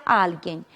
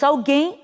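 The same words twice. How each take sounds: First: Alguém stressed on AL; Spanish pronunciation. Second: Alguém stressed on GUÉM; Portuguese pronunciation. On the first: Teacher recapping the Spanish word, first-syllable stress. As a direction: hit AL in alguém. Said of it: "em espanhol será". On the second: Teacher recapping the Portuguese word, final stress. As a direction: land on the end of alguém. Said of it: "em português diríamos". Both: Shown as a demonstration.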